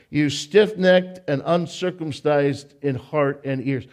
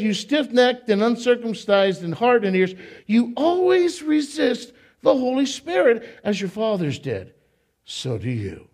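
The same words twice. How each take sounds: First: "stiff-necked" read slow and even; measured slow reading of "You stiff-necked". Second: Fiery sermon reading of "You stiff-necked and uncircumcised"; preached scripture quote. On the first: Shown as a demonstration. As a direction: read it slowly, savoring each word. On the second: Acted. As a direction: preach it at the crowd like Stephen. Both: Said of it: "I love the way he talks".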